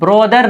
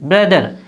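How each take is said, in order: First: The first vowel is a rounded o sound. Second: The first vowel is a short uh sound. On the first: The speaker calls it wrong. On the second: The speaker calls it right.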